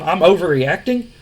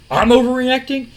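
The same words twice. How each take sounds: First: Said in the usual way. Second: Rising disbelief. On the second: Retold or imitated. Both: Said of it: "he goes".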